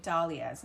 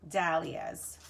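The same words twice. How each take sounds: First: Dahlias with an open "ah", DAH-lee-uhs. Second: Dahlias with a flat "a" as in dad, DAL-ee-uhs; dahlias with short a. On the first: Host showing her own pronunciation, Dahlias as "DAH-lias". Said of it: "I say dahlias". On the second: Host showing the version to avoid, dahlias as "DAL-lias". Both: Shown as a demonstration.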